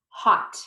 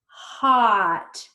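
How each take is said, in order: First: The word is said quickly as one unit. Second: The word is drawn out slowly, sounds stretched. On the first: "Fast like a word" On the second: "Let's blend it slowly"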